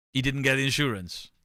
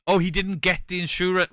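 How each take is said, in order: First: Said in the usual way. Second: Higher, louder mock surprise; mock realisation. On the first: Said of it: "plain take". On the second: Mocking the friend finally getting the joke, higher and louder. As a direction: act out the penny dropping.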